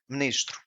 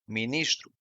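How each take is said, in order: First: It is fast, with a vowel nearly dropped. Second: Every vowel is pronounced clearly.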